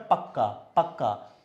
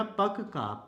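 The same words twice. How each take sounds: First: पक्का slowly with a held doubled क्क; slow correct पक्का; correct pronunciation. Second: पक्का said split as पक-का with a separated first syllable; पक्का pronounced as if written in full, wrongly; wrong full spelling. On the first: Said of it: "तो पक्का नहीं होता है, क्या होता है?". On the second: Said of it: "अब इसी पक्का को अगर मैं पूरा लिख दूं". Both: Shown as a demonstration.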